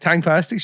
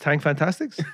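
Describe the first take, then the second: First: The second word has no extra "fan" syllable. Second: The second word has an extra "fan" syllable. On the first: The speaker calls it right. "And I'm like" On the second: The speaker calls it wrong. "Helena can't say it. She goes"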